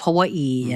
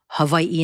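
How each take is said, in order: First: The word is said the English way. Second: The word is said the Hawaiian way. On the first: The speaker calls it wrong. "instead of" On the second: The speaker calls it right. "proper terminology and pronunciation"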